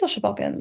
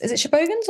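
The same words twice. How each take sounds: First: Shobogans with a short o, sho-BOG-uns; second pronunciation. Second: Shobogans with a long o, sho-BOH-guns; first pronunciation. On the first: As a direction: clip the middle of Shobogans to "bog". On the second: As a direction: stretch the middle of Shobogans into "boh". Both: Shown as a demonstration. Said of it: "they say it both ways".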